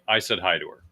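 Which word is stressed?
none. No word is stressed; it is said flat.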